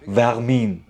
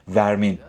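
First: It is said with a French accent. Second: It is said without a French accent.

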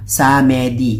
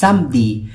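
First: The word is read the way its spelling looks. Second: The word has a native French pronunciation. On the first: The speaker calls it wrong. "Pag nakita nyo" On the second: The speaker calls it right. "pronounced as samedi"

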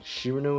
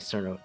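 First: The name begins with a ch sound. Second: The name begins with an s sound. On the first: It follows the Japanese reading of the name. "do you think it should be a Ch instead?" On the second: It follows the English reading of the spelling. "does exactly fit the English spelling"

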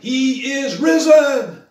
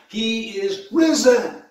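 First: It is said at the loudest level. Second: It is said louder than before.

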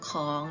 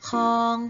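First: The syllable is said with a rising tone. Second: The syllable is said with a mid tone. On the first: "จัตวาค่ะเสียงจัตวาก็จะเป็นของ" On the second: "เสียงสามัญจะเป็นคำว่าคอง"

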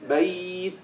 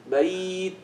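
Both takes have the same delivery.

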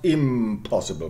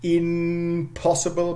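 First: The nasal before p is an m sound. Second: The nasal before p is an n sound.

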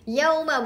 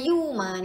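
First: The first syllable has the diphthong 'au'. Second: The first syllable has a plain 'u' vowel. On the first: The speaker calls it right. "Yauma bukan yuma ni" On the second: The speaker calls it wrong. "bukan yuma"

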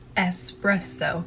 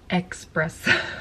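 First: The word is said with a plain s sound. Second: The word is said with a ks sound. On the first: The speaker calls it right. "There's no X. It is espresso" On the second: The speaker calls it wrong. "Not espresso"

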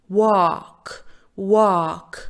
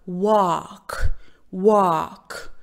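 No difference in how they are said.

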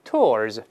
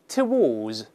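First: The w is silent, one joined syllable. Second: The w is pronounced across two syllables. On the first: "但美音呢，这个W 是不发音的" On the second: "这个英式发音呢，它把W 有发音，然后两个音节，而且不加卷舌音"

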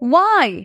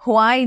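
First: It begins with a plain w sound. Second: It begins with a breathy h sound. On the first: The speaker calls it right. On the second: The speaker calls it wrong.

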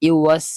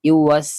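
No difference in how they are said.

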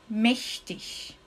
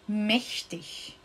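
The two takes are said the same way.

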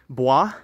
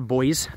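First: The word is said without an American accent. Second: The word is said with an American accent.

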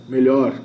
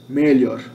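The two takes are said the same way.

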